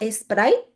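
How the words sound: Sprite is said with a Spanish-style pronunciation. "ella trata de tener la pronunciación en español"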